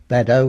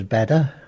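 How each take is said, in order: First: Said in the usual way. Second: "Badder" with final O reduced to "uh"; local Essex pronunciation. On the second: Shown as a demonstration. Showing how Essex people said place names, local pronunciation. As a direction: say "Badder", no O at the end. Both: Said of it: "the O sound is, was never used".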